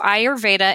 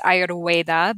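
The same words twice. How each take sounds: First: The middle consonant is a v sound. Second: The middle consonant is a w sound.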